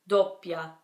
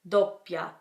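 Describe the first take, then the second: Both takes have the same delivery.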